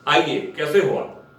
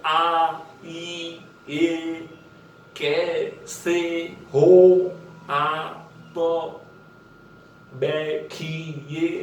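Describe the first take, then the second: First: Said in the usual way. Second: Every sound of आइए, कैसे हो आप, बैठिए pulled long and slow; stretched out. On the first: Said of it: "तो इसको आप इस तरह से प्रैक्टिस करोगे". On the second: Shown as a demonstration. Acting coach shows students the stretched dialogue drill, very slow. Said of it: "आप पूरा stretch करके बोलोगे".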